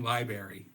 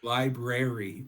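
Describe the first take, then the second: First: The second r sound is dropped. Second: The second r sound is pronounced. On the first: The speaker calls it wrong. "You say you were saying library" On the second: The speaker calls it right. "There's a second R in there"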